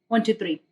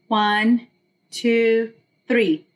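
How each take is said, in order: First: The numbers are counted fast. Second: The numbers are counted slowly.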